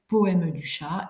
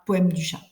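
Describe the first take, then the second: First: The mute e of poème is pronounced. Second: The mute e of poème is dropped. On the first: This is how a poem should be read. The speaker calls it right. "on doit lire poème du chat" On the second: This is how people speak in everyday conversation. The speaker calls it wrong. "et non pas poème du chat"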